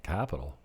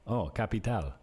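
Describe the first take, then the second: First: CAPITAL stressed on the first syllable, English-style; English pronunciation. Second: CAPITAL stressed on the last syllable, ca-pi-TAL; local Spanish pronunciation. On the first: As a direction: say CAPITAL as an American would, CAP-i-tal. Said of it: "They look at me like this". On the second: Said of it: "putting an accent on when I say capital". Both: Retold or imitated.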